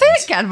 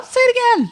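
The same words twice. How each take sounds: First: Said in the usual way. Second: Louder, higher insistent repeat. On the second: Real, not acted. Host eggs on Will to repeat it, louder and higher. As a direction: push the request up high and loud. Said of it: "Say it again, Will".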